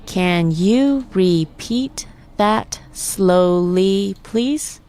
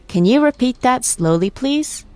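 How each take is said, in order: First: Very slow, "Can you repeat that slowly, please" in separate syllables. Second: Said in the usual way. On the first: Shown as a demonstration. Teacher breaking down the combined phrase, syllable by syllable. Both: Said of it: "Let's break it down by syllable".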